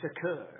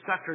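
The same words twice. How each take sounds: First: The word is said with a French-style pronunciation. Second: The word is said with a plain English pronunciation. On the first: The speaker calls it right. "I want to add a French, pronunciation" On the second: The speaker calls it wrong. "I don't like how it's pronounced"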